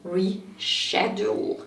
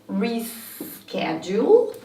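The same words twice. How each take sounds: First: It is said with a British pronunciation. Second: It is said with an American pronunciation. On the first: "reschedule in British English" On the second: "pronounced as reschedule in American English"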